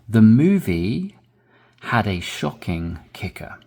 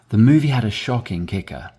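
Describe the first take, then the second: First: The sentence is read at a slow pace. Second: The sentence is read at a natural, faster pace. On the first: "I'll read it slowly" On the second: "and then more naturally"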